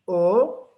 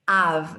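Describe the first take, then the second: First: The suffix is pronounced as a single o vowel. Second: The suffix is pronounced with a vowel plus v. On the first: The speaker calls it wrong. "not O" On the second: The speaker calls it right. "This is important"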